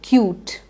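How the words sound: The word is said smoothly in one go. The speaker calls it right. "You have to say it in one go"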